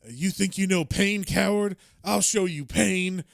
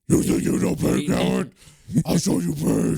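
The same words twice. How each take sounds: First: It is said in a plain, normal speaking voice. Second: It is said in a put-on gravelly Batman voice.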